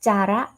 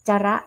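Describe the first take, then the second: No difference in how they are said.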